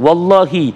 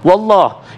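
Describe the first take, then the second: First: The word ends with a final "i" vowel. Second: The word ends without a final "i" vowel. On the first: The oath is clearly made. The speaker calls it right. "silakan wallahi" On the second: The oath is not clearly made. The speaker calls it wrong. "itu belum jelas karena harokat kasronya"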